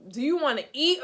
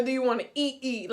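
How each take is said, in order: First: Said in the usual way. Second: "eat, eat" with the second EAT stressed; word doubled for emphasis. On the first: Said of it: "if I say it twice". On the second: Shown as a demonstration. Woman showing how she talks, emphatic doubled "eat, eat". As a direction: double up on "eat" to exaggerate the question. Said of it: "exaggerates the question".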